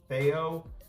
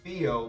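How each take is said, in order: First: The name is said with French pronunciation. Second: The name is said with English pronunciation. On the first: "they pronounce it Theo" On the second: "in English it would be Theo"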